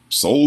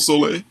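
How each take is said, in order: First: The name sounds like 'Soul'. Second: The name sounds like 'Soleil'. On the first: This is how others online say it. "everybody I see on on, on, on online is saying Soul" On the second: This is how the speaker has been saying it. "I've been saying Soleil"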